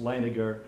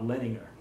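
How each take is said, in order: First: Leininger, first syllable like "line"; correct surname pronunciation. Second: Leninger, first syllable like "len"; mistaken surname pronunciation. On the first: Interviewer giving the surname for the record, correct pronunciation of Leininger. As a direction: say Leininger with a long "i" at the start. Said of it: "pronounced Leininger". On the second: Interviewer warning against a misreading, mispronounced Leninger. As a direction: say Leninger with a short "e" at the start. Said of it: "not Leninger". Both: Shown as a demonstration.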